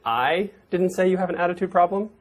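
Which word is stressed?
I. The stress is on the word I.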